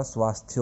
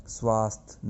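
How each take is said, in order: First: "स्वास्थ्य" ending in a clear thya; सही उच्चारण. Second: "स्वास्थ्य" cut short as swaast, without ya; गलत उच्चारण. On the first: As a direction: say "स्वास्थ्य" as swaasth-ya, sounding the y. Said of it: "स्वास्थ्य होता है". ("स्वास्थ्य" में य साफ़ बोलें) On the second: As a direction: say "स्वास्थ्य" dropping the final y sound. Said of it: "स्वास्थ्य नहीं होता". ("स्वास्थ्य" को स्वास्थ जैसा बोलें) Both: Shown as a demonstration.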